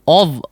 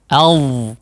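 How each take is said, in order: First: The opening vowel sounds like a rounded 'o'. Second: The opening vowel sounds like an open 'a'. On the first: The speaker calls it wrong. "jangan mengucapkan ov" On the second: The speaker calls it right. "Tapi a"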